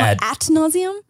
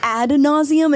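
First: The first word ends with a t sound. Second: The first word ends with a d sound. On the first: The speaker calls it wrong. "not at nauseum" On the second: The speaker calls it right. "It's ad nauseum"

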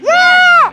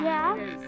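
First: It is said with lively enthusiasm. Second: It is said flatly, with little energy.

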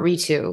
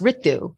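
First: The name is said with an anglicized pronunciation. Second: The name is said with an Indian pronunciation. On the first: The speaker calls it wrong. "not Ritu, not anglicized" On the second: The speaker calls it right. "I go by the Indian pronunciation"

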